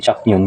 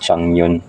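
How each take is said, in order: First: The first syllable ends with a k sound. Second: The first syllable ends with an ng sound. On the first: The speaker calls it wrong. "hindi Chaknyon" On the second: The speaker calls it right. "kundi Changnyon"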